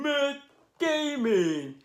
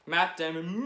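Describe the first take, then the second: First: Much higher, slow, stretched-out name; excited shout-out. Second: Said in the usual way. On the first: Shown as a demonstration. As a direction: hype the name like an announcer. Name said twice, second drawn out.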